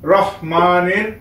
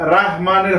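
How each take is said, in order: First: The first vowel is kept short. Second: The first vowel is drawn out long. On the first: The speaker calls it right. "হবে রহমানির" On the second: The speaker calls it wrong. "রাহমানির হবে না"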